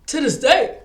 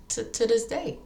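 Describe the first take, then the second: First: Much louder and higher, hammering it home; shouted repeat; emphatic shout. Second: Said in the usual way. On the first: Real, not acted. Repeats phrase, now shouted.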